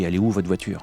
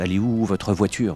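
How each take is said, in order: First: The R in 'votre' is dropped in casual speech. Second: Every letter is clearly pronounced, including the R. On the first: This is how people actually talk in everyday life. "il manque un R" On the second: Careful, textbook speech that nobody uses in real life. "j'ai jamais dit"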